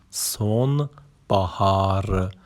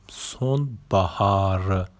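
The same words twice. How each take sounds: The two takes are said the same way.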